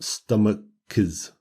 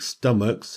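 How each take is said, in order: First: It ends with an extra iz syllable. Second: It ends in a hard k followed by s. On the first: The speaker calls it wrong. "and not" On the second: The speaker calls it right. "if the C H is a hard sound, as in stomach, we just add an S"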